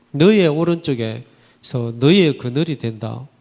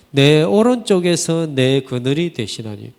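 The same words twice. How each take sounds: First: Said in the usual way. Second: Verse read out louder, leaning on 오른쪽에서; scripture reading. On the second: Shown as a demonstration. Pastor reads the Psalm verse to the congregation, louder and solemn.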